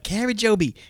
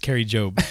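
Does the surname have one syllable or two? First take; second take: two; one. First: The surname is said with two syllables. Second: The surname is said with one syllable. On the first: The speaker calls it wrong. "I want to be like, Carrie Joby, just because it like almost rhymes, but that's not right" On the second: The speaker calls it right. "It's Carrie Job"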